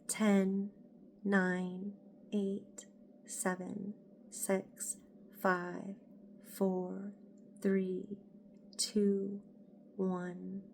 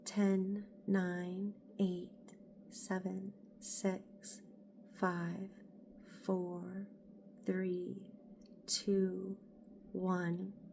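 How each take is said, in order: First: The count is spoken at a normal volume. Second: The count is spoken in a very soft voice.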